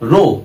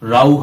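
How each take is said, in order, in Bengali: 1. স্বরধ্বনিটি 'go' শব্দের 'oh' এর মতো উচ্চারিত হয়। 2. স্বরধ্বনিটি 'cow' শব্দের 'ow' এর মতো উচ্চারিত হয়। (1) "এখানে ঠিক রো" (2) "রাউ হয় না"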